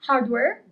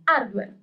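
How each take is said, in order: First: It begins with an audible h sound. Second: It begins with a vowel, no h sound. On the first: This is the English way. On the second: This is the Italian way.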